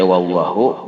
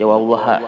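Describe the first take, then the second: First: The word ends with an 'u' vowel. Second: The word ends with an 'a' vowel. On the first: "boleh dibaca wallahu" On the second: "boleh dibaca wallaha"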